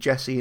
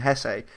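First: The name starts with a J sound. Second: The name starts with an H sound. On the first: This is the form many fans use. The speaker calls it wrong. "so many Stoke fans just call him Jesse" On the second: This is the proper form of the name. The speaker calls it right. "I know it's Hesse"

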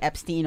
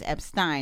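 First: The ending does not rhyme with Frankenstein. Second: The ending rhymes with Frankenstein. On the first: The speaker calls it wrong. "I kept mispronouncing. ... I would say Epstein all the time" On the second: The speaker calls it right. "it's like Frankenstein, so it's Epstein"

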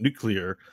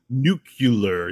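First: The word is said quickly and run together. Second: The word is said slowly and carefully. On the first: "which if you say it fast" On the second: "You didn't go nuclear"

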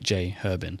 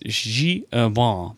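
First: The name is said with an English pronunciation. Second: The name is said with a French pronunciation. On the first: This is how the hosts usually say the name. The speaker calls it wrong. "but we say like J. Herbin" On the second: This is the proper way to say the name. The speaker calls it right. "it's J. Herbin"

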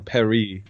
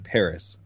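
First: It is said the French way, like Paree. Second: It is said the English way, with a final s. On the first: The speaker calls it wrong. "It's not in Paris" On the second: The speaker calls it right. "it's in Paris"

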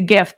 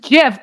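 First: The word begins with a hard G sound. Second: The word begins with a soft J sound. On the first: The first letter stands for graphic. "graphic is guh. So I say gif" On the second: This is how most other people say it. "Everybody else says it's gif"

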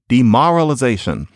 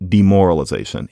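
First: The stressed vowel sounds like the one in 'car'. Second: The stressed vowel sounds like the one in 'more'. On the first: This is an older regional pronunciation. "he says demoralization" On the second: This is the usual pronunciation in that region today. "as opposed to demoralization"

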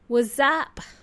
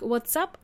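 First: A Z sound joins the words. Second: A clear T and S sound joins the words. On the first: "You actually hear the Z sound" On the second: "You don't hear that T and S sound like what's up"

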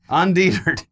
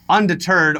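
First: The word is pronounced in a mangled way. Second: The word is pronounced in the standard way. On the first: This copies how someone else said it. The speaker calls it wrong. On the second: This is the usual form of the word. The speaker calls it right.

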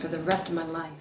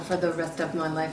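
First: The words are smoothly connected together. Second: The words are choppy and separated.

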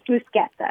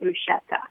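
First: The middle consonant is a hard k sound. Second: The middle consonant is a soft sh sound. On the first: This is how it is said in Italy. The speaker calls it right. "In Italy, it's bruschetta. ... And it comes from the CH" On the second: This is the common American way of saying it. The speaker calls it wrong. "a lot of people pronounce it bruschetta. And it just makes me crazy"

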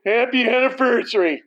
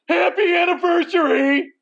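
First: It is said flatly, without joy. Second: It is said in a happy tone.

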